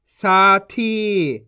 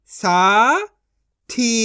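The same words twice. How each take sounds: First: साथी as one joined word; long साथी, falling at the end; blended reading. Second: साथी split into सा, pause, थी; syllable by syllable. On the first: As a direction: join सा and थी. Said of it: "इनको आपस मिला के पढ़". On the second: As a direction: sound out साथी in two syllables. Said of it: "एक एक अक्षर का उच्चारण करके". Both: Shown as a demonstration.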